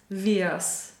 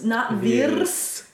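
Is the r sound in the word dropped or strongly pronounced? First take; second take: dropped; strong. First: The r sound is dropped, not rolled. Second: The r sound is strongly pronounced. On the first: The speaker calls it right. "So no rrr in wir's" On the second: The speaker calls it wrong.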